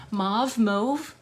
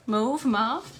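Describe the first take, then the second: First: MAUVE said two ways, open "mahv" then "mohv"; two ways of saying mauve. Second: MAUVE as "mohv", then flipped to "mahv"; two ways of saying mauve. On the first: Crafter showing viewers how she might say mauve, "mahv" then "mohv". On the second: Crafter trying out mauve for viewers, "mohv" then "mahv". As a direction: say mauve with a long O, then an open AH, louder. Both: Shown as a demonstration. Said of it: "the right way to say mauve".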